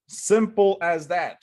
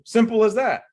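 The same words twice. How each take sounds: First: "Simple as that" slowed, each word weighted; slow emphatic. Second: Simple as that said high and loud; emphatic. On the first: Coach repeats the rule slowly and firmly. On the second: Coach drills home keeping it simple, emphatic. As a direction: punch "Simple as that" hard. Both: Shown as a demonstration.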